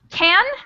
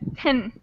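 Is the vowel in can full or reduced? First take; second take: full; reduced. First: The word is said with a full vowel. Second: The word is shortened with a reduced vowel.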